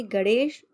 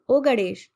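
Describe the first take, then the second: First: Calling a name across the yard, rising. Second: Louder call. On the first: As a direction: call out to him, first try. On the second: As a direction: call out harder when he doesn't answer. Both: Acted. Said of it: "मैंने आवाज लगाई".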